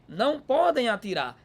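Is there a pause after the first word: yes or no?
no. It is said without a pause after não.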